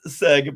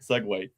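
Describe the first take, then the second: First: It is said as one short syllable, seg. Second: It is said as two syllables, ending in way. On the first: The speaker calls it wrong. "it looks like it's it's seg" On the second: The speaker calls it right. "but it's segue. Kind of like Subway"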